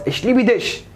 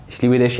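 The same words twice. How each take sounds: First: High-pitched, as if hurling a brick; mock harsh German. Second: Said in the usual way. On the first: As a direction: make the love phrase sound like an attack. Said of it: "مسكت طوبة وخبطته بيها". (بخشونة مصطنعة وصوت عالي الطبقة) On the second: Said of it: "يعني بحبك".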